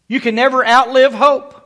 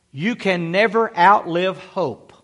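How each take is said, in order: First: Louder and higher, outlive rising; louder preaching repeat. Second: NEVER leaned on, slow and falling; slow emphasis on never. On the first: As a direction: lift it up and ring out on outlive. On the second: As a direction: press the word never down slowly. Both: Real, not acted. Pastor repeats line for emphasis.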